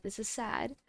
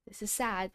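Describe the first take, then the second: First: "This is sad." with "is" stressed and rising. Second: "This is sad." with "sad" stressed and falling. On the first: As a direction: punch "is", lift the tune. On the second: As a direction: lean on "sad", drop at the end. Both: Shown as a demonstration.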